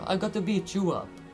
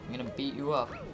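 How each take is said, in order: First: It is said in a Mario impression. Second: It is said in his natural voice.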